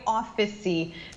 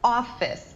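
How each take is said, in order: First: The word is said with an extra third syllable. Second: The word is said with two syllables. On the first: The speaker calls it wrong. "não é office" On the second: The speaker calls it right. "só tem duas sílabas"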